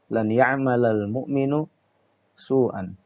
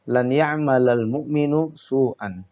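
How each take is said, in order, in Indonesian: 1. Kata mu'min berakhir dengan bunyi u. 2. Kata mu'min berakhir dengan bunyi u.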